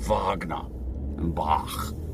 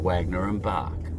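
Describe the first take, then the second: First: The names are pronounced the German way. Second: The names are pronounced the English way. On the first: "I'd be saying Wagner and Bach" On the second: "instead of Wagner and Bach"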